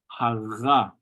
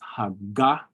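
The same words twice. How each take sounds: First: The middle consonant lets the air flow through. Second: The middle consonant fully stops the air. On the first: The speaker calls it right. "rather it flows" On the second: The speaker calls it wrong. "When you're fully stopping the air from your lungs"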